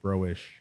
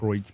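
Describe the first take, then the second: First: The name ends with a 'sh' sound. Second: The name ends without a 'sh' sound. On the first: The speaker calls it right. "It's pronounced S H, like broish" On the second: The speaker calls it wrong. "not broich"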